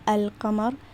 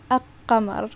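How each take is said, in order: First: The L sound is clearly pronounced before the Q. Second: The L is dropped and the Q is doubled. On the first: The speaker calls it right. "this would not be al-qamar" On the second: The speaker calls it wrong. "this would be al-qamar, which is incorrect"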